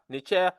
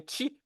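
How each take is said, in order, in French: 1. Le mot a une voyelle et un son ch. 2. Le mot a un son sh et pas de voyelle. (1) "non pas Necher" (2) "mais Nchi"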